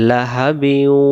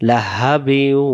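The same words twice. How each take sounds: The two takes are said the same way.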